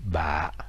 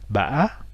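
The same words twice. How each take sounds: First: The syllable is said with a very low heavy tone. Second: The syllable is said with a broken tilde tone. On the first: "avec un accent très grave" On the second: "avec un accent du type D"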